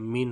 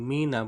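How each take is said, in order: First: The word ends on the bare consonant. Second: The word ends with an added final vowel. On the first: The speaker calls it right. "মিন হবে" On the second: The speaker calls it wrong. "এখানে মিনা বলা যাবে না"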